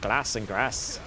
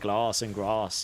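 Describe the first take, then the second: First: It is said in a Doncaster accent. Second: It is said in a southern English accent.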